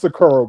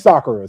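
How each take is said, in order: First: It is said with a Japanese-style pronunciation. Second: It is said with an American-style pronunciation. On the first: "it's pronounced Sakura, bro" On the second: "that's not how Americans say that shit. Just say Sakura"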